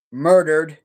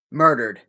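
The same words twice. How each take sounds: First: Said in the usual way. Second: Murdered said low and falling, sarcastic air quotes. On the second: Shown as a demonstration. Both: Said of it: "And I put that in quotes".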